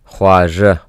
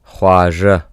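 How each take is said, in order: Both takes have the same delivery.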